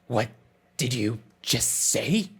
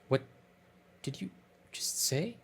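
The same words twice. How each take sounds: First: It is said in a put-on character voice. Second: It is said in a plain, normal voice. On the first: The speaker calls it right. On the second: The speaker calls it wrong.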